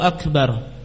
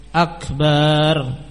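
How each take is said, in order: First: The vowel after the b is short. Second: The vowel after the b is drawn out long. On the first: It means greatest. The speaker calls it right. "dengan memendekkan huruf ba" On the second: It means drums. The speaker calls it wrong. "kalau dipanjangkan Akbar"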